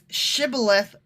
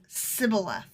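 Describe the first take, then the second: First: The word begins with an sh sound. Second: The word begins with an s sound. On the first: The speaker is not from that tribe. The speaker calls it right. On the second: The speaker is from that tribe. The speaker calls it wrong.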